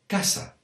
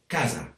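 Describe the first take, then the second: First: It is said in the apitxat Valencian accent. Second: It is said in a non-apitxat Valencian accent. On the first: "But in this part of the País Valencià, it's" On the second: "other areas that speak Valencian would say"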